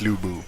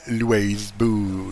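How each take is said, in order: First: The name is said in the usual, familiar way. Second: The name is said in an odd, unfamiliar way. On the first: This is how the name is normally said. The speaker calls it right. "it's Lou Boo" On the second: This is how the new game's voice acting says it. The speaker calls it wrong. "it was really weird uh, to to hear"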